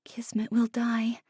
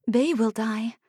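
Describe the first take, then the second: First: Soft fearful whisper. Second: Said in the usual way. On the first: A narrator's reading. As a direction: whisper the dread to yourself. Anxious inner thought.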